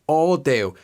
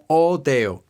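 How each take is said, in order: Both takes have the same delivery.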